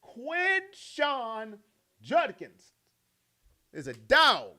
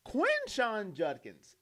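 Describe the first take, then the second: First: Name split up, hit "dog" hard; hyped, emphatic repeat. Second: Each name drawn out slow; slow emphasis. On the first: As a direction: break it into punches, land "dog". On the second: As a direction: lay the name down slowly. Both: Shown as a demonstration. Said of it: "do I need to say it again?".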